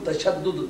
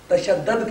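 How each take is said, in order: First: The final syllable has a 'u' vowel. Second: The final syllable has an 'a' vowel. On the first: The speaker calls it right. "ये तफाउल के वजन पर लफ्ज़ है" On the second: The speaker calls it wrong. "तशद्दद कहना ये गलत है"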